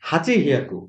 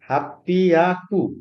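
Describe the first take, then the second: First: It is said with a 'ch' and 'hy' sound. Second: It is said with a doubled 'pp' sound. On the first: The speaker calls it wrong. "এটা হওয়ার কথা ছিল হাচি হিয়াকু" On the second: The speaker calls it right. "এটা হাচি হিয়াকু না হয়ে এটা হয় হাপ্পিয়াকু"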